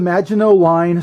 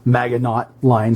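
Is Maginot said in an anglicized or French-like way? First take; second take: French-like; anglicized. First: Maginot is said in a French-like way. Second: Maginot is said in an anglicized way.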